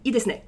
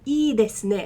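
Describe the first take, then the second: First: The first vowel is short. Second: The first vowel is somewhat lengthened. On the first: The speaker calls it wrong. "I don't say" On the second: The speaker calls it right. "I lean on it a bit"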